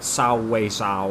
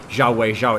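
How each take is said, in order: First: The name starts with an 's' sound. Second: The name starts with a 'zh' sound. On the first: The speaker calls it right. "It's supposed to be like" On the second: The speaker calls it wrong. "you're not mis- supposed to say like"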